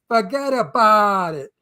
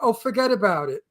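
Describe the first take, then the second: First: It is said in a Brooklyn accent. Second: It is said without a Brooklyn accent.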